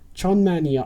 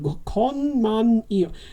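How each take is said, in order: First: The word begins with a ch sound. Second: The word begins with a k sound. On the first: The speaker calls it right. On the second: The speaker calls it wrong.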